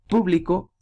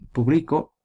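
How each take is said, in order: First: The stress is on the first syllable. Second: The stress is on the middle syllable. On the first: "es esdrújula" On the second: "es grave"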